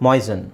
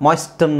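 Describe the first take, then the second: First: "ಮಾಯ್ಸನ್" as "moy-sun", no T; low, falling "ಮಾಯ್ಸನ್" without T; silent T. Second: "ಮಾಯ್ಸ್ಟನ್" as "moys-tun"; sounded T. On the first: Teacher giving the corrected moisten, silent T. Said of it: "ಮಾಯ್ಸ್ಟನ್ ಅಂತ ಹೇಳಲ್ಲ". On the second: Teacher showing how not to say moisten, sounded T. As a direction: put a hard T in "ಮಾಯ್ಸ್ಟನ್". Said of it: "ಅಂತ ಹೇಳಲ್ಲ". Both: Shown as a demonstration.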